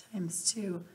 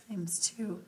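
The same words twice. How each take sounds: The two takes are said the same way.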